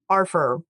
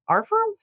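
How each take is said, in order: First: Said in the usual way. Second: "our firm" with "firm" leaping high into a question. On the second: Retold or imitated. Host mimicking Sarah's questioning "our firm" with a high rise. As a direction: toss "firm" up as a doubtful question. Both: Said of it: "She said it as a question mark".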